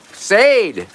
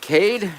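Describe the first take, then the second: First: The name begins with a soft s sound. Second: The name begins with a hard k sound. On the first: "Is it a soft C?" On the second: "Or is it a hard C?"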